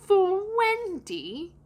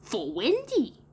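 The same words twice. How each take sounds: First: High, stretched-out disbelieving question; put-on boy, scandalised and very slow; aghast. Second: Put-on high, slow boy voice falling at the end; put-on child voice, falling finish; matter-of-fact reply. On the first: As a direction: swoop down and up again in horror. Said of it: "John said aghast". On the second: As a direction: answer in a drawn-out, settled statement. Boy answering John's question. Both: A narrator's reading.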